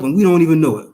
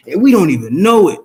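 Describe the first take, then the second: First: Said in the usual way. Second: Louder, punching and we don't even know it; pressing and we don't even know it home; emphatic. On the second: Shown as a demonstration. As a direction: hit and we don't even know it hard, stressing we.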